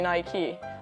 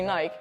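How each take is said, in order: First: It is said the American way. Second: It is said the European way.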